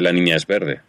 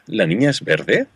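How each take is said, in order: First: The voice falls at the end. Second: The voice rises at the end.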